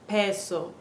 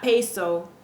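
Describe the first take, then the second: First: The e vowel is a short, pure 'eh'. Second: The e vowel glides like English 'day'. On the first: The speaker calls it right. "It's peso" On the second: The speaker calls it wrong. "No, it's not peso"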